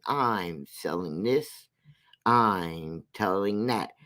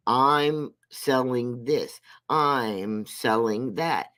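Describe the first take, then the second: First: Lower, slow mocking sales patter; low slow mock pitch. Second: Drawn-out mock hawking, slow; slow mocking sales pitch. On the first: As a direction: mimic her selling, lower and slower. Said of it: "has herself up there saying". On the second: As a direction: spell out each item slowly, mocking her sales pitch. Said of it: "while she's saying".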